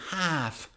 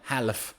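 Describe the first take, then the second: First: The L is silent. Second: The L is sounded. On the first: The speaker calls it right. "So we say half" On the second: The speaker calls it wrong. "not half"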